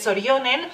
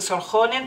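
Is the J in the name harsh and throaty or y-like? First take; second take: y-like; harsh. First: The J sounds like an English Y. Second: The J is a harsh throaty sound. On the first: This is how Finnish says it. The speaker calls it right. "la J en finlandés también es como Y" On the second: This is how the dubbed service says it. The speaker calls it wrong. "aunque ahí dicen Sorjonen"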